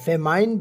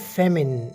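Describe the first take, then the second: First: The second syllable sounds like 'mine'. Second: The second syllable sounds like 'min'. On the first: The speaker calls it wrong. "फेमाइन बिल्कुल गलत है" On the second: The speaker calls it right. "इसे आपने फेमिन pronounce करना है"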